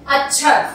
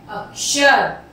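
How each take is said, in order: First: "अक्षर" said as achchhar, chh replacing ksh; colloquial chh sound. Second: "अक्षर" said as akshar, with k plus sh; correct ksh sound. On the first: Teacher shows pupils the faulty form, "अक्षर" as achchhar. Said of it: "अक्षर तो कुछ भी नहीं होता". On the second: Teacher gives pupils the right pronunciation, "अक्षर" with ksh. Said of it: "सही उच्चारण क्या है". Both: Shown as a demonstration.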